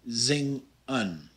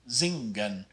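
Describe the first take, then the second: First: The NG has no hard G after it. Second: The NG is followed by a hard G sound. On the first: The speaker calls it right. "You want to pronounce it zing-un" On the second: The speaker calls it wrong. "with kind of a hard G ... you don't want to do that"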